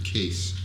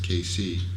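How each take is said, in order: First: The name is said as one syllable. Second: The name is said as two syllables. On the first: The speaker calls it wrong. "That's how she pronounced it" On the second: The speaker calls it right. "it was pronounced K C"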